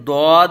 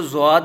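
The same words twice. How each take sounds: First: ضاد begun with a thick, heavy d, as "dwaad"; Arabic-style Dwaad. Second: ضاد begun with a buzzing z, as "zwaad"; Urdu-style Zwaad. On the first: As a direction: press a full d into ضاد. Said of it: "بلکہ ضاد ادا کریں گے". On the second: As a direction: put a z at the front of ضاد. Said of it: "اس کو ضاد نہیں پڑھیں گے". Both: Shown as a demonstration.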